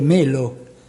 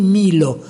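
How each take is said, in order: First: The first vowel is pronounced as 'e'. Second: The first vowel is pronounced as 'i'. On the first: This follows the written spelling. "E noi dovremmo dire Melo" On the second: This follows later Greek pronunciation. "i greci pronunciano la etta con la I"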